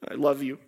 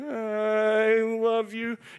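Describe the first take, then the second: First: It is said flatly, without meaning it. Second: It is said warmly, with real feeling.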